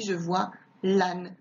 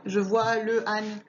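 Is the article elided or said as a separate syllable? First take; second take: elided; separate. First: The article is elided and joined to the noun. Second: The article is a separate syllable before the noun. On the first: The speaker calls it right. "on dit je vois l'âne" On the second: The speaker calls it wrong. "on ne dit pas le âne"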